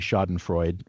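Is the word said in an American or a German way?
American. It is said with an anglicized American pronunciation. "fine as an American"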